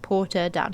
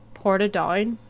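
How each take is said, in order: First: The name is said in the speaker's usual accent. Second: The name is said in an unusual, local accent. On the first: The speaker calls it wrong. "that's not how you say it" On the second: The speaker calls it right. "in like a really uh, unusual for me accent"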